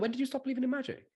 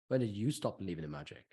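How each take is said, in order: First: It is asked lightly, as an offhand aside. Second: It is asked heavily, in a pointed, serious way. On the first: It is a playful, harmless challenge. "especially if you say it in the tone of voice you phrase. Also, also, oh, by the way" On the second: It sounds like a real accusation. "There's a big difference"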